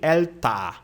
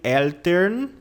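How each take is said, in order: First: The last syllable has a clear 'a' vowel. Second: The last syllable has a clear 'e' vowel. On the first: "nem Elta" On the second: "Você não diz nem Eltern"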